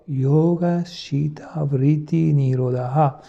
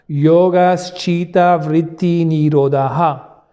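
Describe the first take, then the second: First: It is said very softly, barely voiced. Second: It is said loudly, at full voice. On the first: "Et encore une fois" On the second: "le dire à haute voix"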